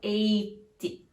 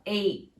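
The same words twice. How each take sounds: First: An extra vowel sound follows the final T. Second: The word stops sharply on the final T. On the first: The speaker calls it wrong. "Você não pode falar eight" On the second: The speaker calls it right. "o fim desse número é bem seco. Você tem que parar ali no T sem puxar nenhum izinho"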